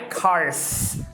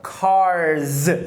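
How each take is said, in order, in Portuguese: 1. A palavra termina com som de s surdo. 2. A palavra termina com som de z sonoro. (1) "não é cars" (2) "é cars"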